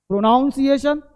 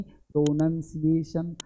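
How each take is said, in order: First: "प्रोनाउंसिएशन" as pro-NOWN-si-ay-shun; wrong pronunciation. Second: "प्रोनंसिएशन" slow and low as pro-NUN-si-ay-shun; soft, spaced "प्रोनंसिएशन", no "nown"; correct pronunciation. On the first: Teacher labels the common error, wrong pronunciation. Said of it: "प्रोनाउंसिएशन गलत है". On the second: Teacher corrects the mistake, correct pronunciation. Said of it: "प्रोनाउन नहीं". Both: Shown as a demonstration.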